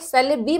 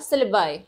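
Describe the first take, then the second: First: The word ends with an 'ee' sound. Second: The word ends with an 'eye' sound. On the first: The speaker calls it wrong. "सिलेबी मत पढ़िएगा" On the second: The speaker calls it right.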